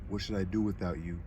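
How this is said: It is said with dramatic, passionate emotion. "he said passionately / I kind of was being dramatic"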